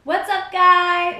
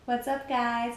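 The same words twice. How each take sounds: First: Big, slow, loud hello, much higher; loud greeting. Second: Said in the usual way. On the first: Real, not acted. Vlogger opens the video to viewers, loud slow greeting.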